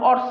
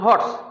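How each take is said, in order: First: The word begins with a vowel sound. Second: The word begins with an h sound. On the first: The speaker calls it wrong. "উচ্চারণ আর অর্স না" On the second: The speaker calls it right. "এটার উচ্চারণ হর্স"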